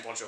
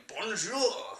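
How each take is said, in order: First: Said in the usual way. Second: High, exaggerated French greeting; hammed-up French accent; mock French. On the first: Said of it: "I would be saying bonjour". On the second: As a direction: sing out BONJOUR like a cartoon French vlogger. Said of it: "Same way where if I was in".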